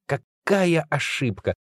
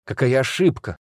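First: Какая ошибка said slowly, drawn out on Какая and falling; slow ironic stress. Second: Said in the usual way. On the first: Shown as a demonstration. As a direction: linger on Какая, then let ошибка drop.

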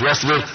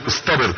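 First: واصبر said plainly without the ط; واصبر with a plain ص and no ط sound; the mistaken reading واصبر, no ط; wrong form. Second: اصطبر with a clear ط after the ص; اصطبر said deliberately with ص then ط; correct form. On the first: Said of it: "اصطبر، صاد بعد الصاد طاء، مش واصبر". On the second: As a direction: stress the ط in اصطبر. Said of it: "اصطبر، صاد بعد الصاد طاء". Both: Shown as a demonstration.

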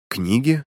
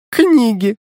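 First: Said in the usual way. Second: High, loud mocking echo of "Книги"; mocking mimic. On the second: A narrator's reading. Girl mocks his answer, high and loud mocking. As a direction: throw "Книги" back high and loud in mockery. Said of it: "передразнила меня Алина".

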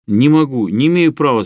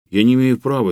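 First: Louder, higher shout of refusal. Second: Said in the usual way. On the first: Acted. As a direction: yell "не имею права" in panic. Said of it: "закричал Трухин". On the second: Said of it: "plain objection".

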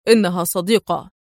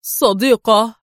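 First: Lower, firm falling statement; stern. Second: Louder, astonished one-word question; stunned. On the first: Adham vouching for Rachel to the man, stern. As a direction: reassure him with firm certainty. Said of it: "يقول في صرامة". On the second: Man staring at Rachel in uniform, stunned. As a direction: echo it in disbelief. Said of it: "ذاهلا". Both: A narrator's reading.

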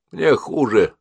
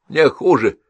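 First: Lightly voiced grumbling old patient; a touch of stubborn complaint; old woman complaining. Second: Higher, louder stubborn repeat; a hint of an old woman insisting; insistent old woman. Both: A narrator's reading.

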